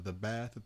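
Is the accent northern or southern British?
northern. It is said in a northern British accent.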